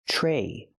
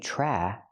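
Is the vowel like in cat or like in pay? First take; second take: pay; cat. First: The vowel is long, as in pay. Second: The vowel is short, as in cat. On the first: The speaker calls it right. "We use the long A sound like pay and say" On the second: The speaker calls it wrong.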